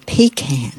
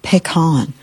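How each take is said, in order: First: "pecan" as PEE-can; "pecan" pronounced PEE-kan; regional pronunciation. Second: "pecan" as pick-AHN; "pecan" pronounced pih-KAHN; regional pronunciation. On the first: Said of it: "Some of you out there say". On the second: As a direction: say "pecan" with stress on a long final AHN. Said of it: "some of y'all out there say". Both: Shown as a demonstration.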